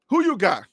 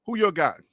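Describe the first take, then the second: First: "who" punched, you and got light; WHO you got, lead with "who"; stress on who. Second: "you" leaned on, who and got light; who YOU got, weight on "you"; stress on you. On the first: Host asking viewers, stress on "who". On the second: Host asking viewers, stress on "you". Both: Shown as a demonstration.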